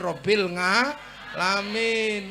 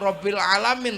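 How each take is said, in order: First: The second word starts with an ng sound. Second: The second word starts with a plain vowel.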